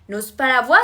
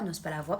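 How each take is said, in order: First: It is said loudly, with a raised voice. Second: It is said calmly, without raising the voice.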